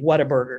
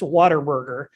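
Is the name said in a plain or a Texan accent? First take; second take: plain; Texan. First: The name is said in a plain accent. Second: The name is said in a Texan accent.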